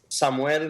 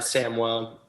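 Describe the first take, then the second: First: The name is pronounced the Spanish way. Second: The name is pronounced the English way. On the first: This is the name's original, technically correct form. "that's like the Spanish pronunciation" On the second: This is the everyday form used in America. "in America, we go by Samuel most most of the time"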